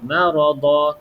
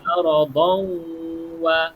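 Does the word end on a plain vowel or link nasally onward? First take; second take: plain vowel; nasal link. First: The word stops on a plain vowel, no nasal. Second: A nasal sound hums straight into the next word. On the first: The reader stops after this word. "kalau kita berhenti bunyi dia macam tak ada" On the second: The reader continues into the next word. "Kalau kita sambung ... dia akan dengung masuk dalam ni"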